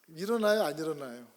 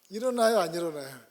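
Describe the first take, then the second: Both takes have the same delivery.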